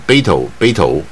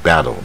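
First: The word is said in choppy, separate syllables. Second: The word is said smoothly with a curled tongue. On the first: The speaker calls it wrong. "不要念成battle 啊，北头念成北头士林啊" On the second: The speaker calls it right. "这是大卷舌battle"

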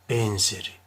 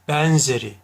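First: The E vowel is said closed. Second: The E vowel is said open. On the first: The speaker calls it right. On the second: The speaker calls it wrong.

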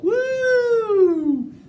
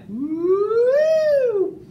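First: The voice glides from high down to low. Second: The voice glides from low up to high.

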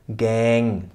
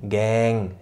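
No difference in how they are said.

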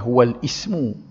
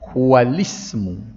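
First: A glottal stop is sounded before 'ismu'. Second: The words run together without a glottal stop. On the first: The speaker calls it wrong. "jangan baca huwal ismu di hamzah wasal" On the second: The speaker calls it right. "Sama dengan ni"

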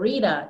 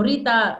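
First: The name is said with an English pronunciation. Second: The name is said with a Romanian pronunciation. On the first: "if you want me to pronounce it in English" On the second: "That would be the pronunciation in Romanian"

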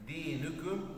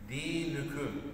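The two takes are said the same way.

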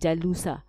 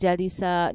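First: The middle syllable has the vowel u. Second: The middle syllable has the vowel i. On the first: "nor will I ever say jalusa" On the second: "I will never say jalisa"

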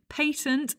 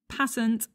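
First: It is said with a British English pronunciation. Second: It is said with an American English pronunciation. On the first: "is the English pronunciation" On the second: "is the American pronunciation"

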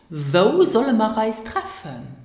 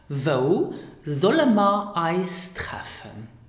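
First: The words run together in natural connected speech. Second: The words are said separately and carefully.

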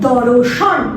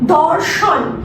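First: A vowel is inserted between r and sh. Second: The r and sh sounds are joined directly.

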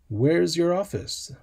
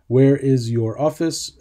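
First: Where and is are merged into one syllable. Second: Where and is are said as two separate words. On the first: It sounds natural and relaxed. The speaker calls it right. "If I contract it with an apostrophe S, It sounds much more natural" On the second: It sounds stiff and robotic. The speaker calls it wrong. "Sounds a little bit like a robot is talking"

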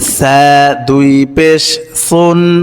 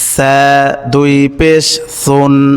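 First: The first consonant is a thin, soft sound. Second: The first consonant is a thin, soft sound.

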